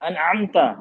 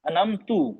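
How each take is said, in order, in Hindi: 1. शब्द एक छोटे 'a' स्वर पर खत्म होता है। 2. शब्द एक छोटे 'u' स्वर पर खत्म होता है। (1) "ता" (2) "ता को तू कर दिया"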